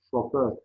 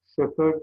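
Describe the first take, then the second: First: Said in the usual way. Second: "Şoför" with ö in both syllables, şöför; first o of "Şoför" fronted to ö; misspelt form. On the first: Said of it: "doğrularını yazalım". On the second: Shown as a demonstration. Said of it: "yanlış yazılmış olan sözcüklerin".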